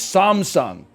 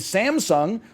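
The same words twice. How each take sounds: First: It is said with a Korean pronunciation. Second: It is said with an American English pronunciation. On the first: The speaker calls it right. "I'm pronouncing everything in the exact intonation that it is in the language that it started from" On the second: The speaker calls it wrong. "in the commercials in the U S, they say"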